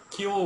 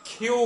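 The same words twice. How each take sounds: First: কিউ with an unaspirated k; wrong pronunciation. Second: কিউ with a strongly aspirated k, "khyu"; correct pronunciation. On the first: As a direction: say কিউ with no puff of air. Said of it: "আসলে কিউ না". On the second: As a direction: puff air into the k of কিউ, pitched high. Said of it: "its correct pronunciation". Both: Shown as a demonstration.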